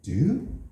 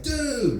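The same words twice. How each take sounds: First: It is asked as a question. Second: It is a quick call for attention. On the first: Are you all right? "you can ask a question like, hey, are you all right?" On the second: Look at that over there. "hey, look at that over there"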